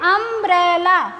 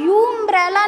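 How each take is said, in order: First: The word begins with an open 'uh' vowel. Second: The word begins with a 'yu' sound. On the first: The speaker calls it right. "अम्ब्रेला का मतलब आ से उच्चारण हो रहा है इसका" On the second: The speaker calls it wrong. "इसका उच्चारण हम लोग यू अम्ब्रेला नहीं करते"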